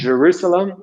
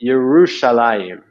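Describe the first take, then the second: First: The city name is said the English way. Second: The city name is said the Hebrew way. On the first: The speaker calls it wrong. "is not" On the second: The speaker calls it right. "which has a whole different meaning in Hebrew"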